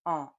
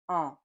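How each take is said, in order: Both takes have the same delivery.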